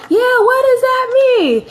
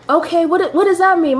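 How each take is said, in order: First: High-pitched mock mom voice; playful, much higher impression of mother butting in; imitating mom. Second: Raised pitch, puzzled reaction; mildly baffled, higher-pitched query; confused question. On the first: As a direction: pipe up like an insistent mother on speakerphone. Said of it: "My mom like". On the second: Retold or imitated. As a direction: ask the doctor to explain, a little higher. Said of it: "I'm like".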